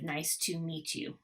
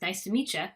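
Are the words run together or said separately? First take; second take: separate; connected. First: Each word is said separately with full vowels. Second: The words run together with reduced vowels. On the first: "instead of nice to meet you" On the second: "it becomes nice to meet you"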